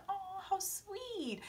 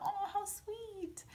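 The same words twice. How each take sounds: First: Slow, hushed and much softer, swooning; dreamy soft aww. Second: Slow, hushed and much softer, swooning; melting soft aww. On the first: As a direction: sigh it out like melting. Swooning over kiss. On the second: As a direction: breathe it out dreamily. Repeats swoon line. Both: Retold or imitated.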